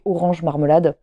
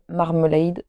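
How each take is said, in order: First: "Orange Marmelade" dit à la française; "Marmelade" prononcé comme le mot français, maʀməlad. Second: "Marmalade" prononcé à l'anglaise, maʀməlaid; "Marmalade" avec un -ade final dit comme "aid" anglais. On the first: ("Orange Marmelade" à la française, sans accent anglais) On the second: ("Marmalade" à l'anglaise, maʀməlaid) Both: Shown as a demonstration. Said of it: "je sais pas comment on dit".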